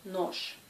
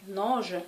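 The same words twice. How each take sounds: First: "noche" ending in voiceless sh, like nosh; devoiced final sh. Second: "noge" ending in a buzzed zh; voiced final zh. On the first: Teacher giving the correct form, "noche" with sh ending. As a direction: hush the end of "noche", no voicing. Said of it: "correctement, il faut prononcer noche". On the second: Teacher showing the tolerated mistake, "noge" with voiced zh ending. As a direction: keep the last consonant of "noge" voiced, like French g. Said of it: "si vous prononcez noge". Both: Shown as a demonstration.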